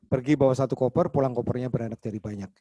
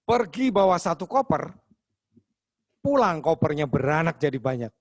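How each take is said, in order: First: It is read flatly, with little intonation or expression. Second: It is told expressively, with lively intonation and pacing. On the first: It is only a practice read-through. "Belum pakai cara berbicara, artikulasi, intonasi, aksentuasi, pace, speed, dan ekspresi... ini masih belum on stage" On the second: It is a story told to a live audience. "Tapi kita udah cerita nih Bang, udah didengerin orang banyak"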